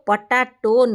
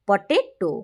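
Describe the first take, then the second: First: The middle vowel sounds like 'ah'. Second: The middle vowel sounds like 'ay'. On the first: The speaker calls it wrong. "ପଟାଟୋ ନୁହେଁ" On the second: The speaker calls it right. "ଠିକ୍ ହେଉଛି ପଟେଟୋ"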